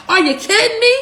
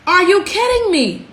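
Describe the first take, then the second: First: Can't believe what she's hearing; pitched-up outraged disbelief; incredulous. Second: Dry, tired incredulity; exasperated. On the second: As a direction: let the outrage settle into weary disbelief. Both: Real, not acted.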